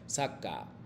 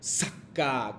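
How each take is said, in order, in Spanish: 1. La pausa antes de la segunda sílaba es leve. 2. La pausa antes de la segunda sílaba es exagerada. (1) "realmente nosotros cuando pronunciamos estas palabras dice saca" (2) "como si fuera como muy extremos y como que saltando demasiado"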